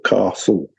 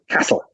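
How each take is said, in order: First: The vowel is a long 'ah', as if spelled with R. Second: The vowel is a short, flat 'a' sound. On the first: "if you're brought up in the south of England, you pronounce castle castle" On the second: "My wife, who's a good northerner, will say castle"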